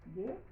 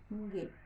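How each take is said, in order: First: The G sound is oral, without nasal resonance. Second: The G sound is nasal, with nasal resonance. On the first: "una G oral" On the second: "una G nasal"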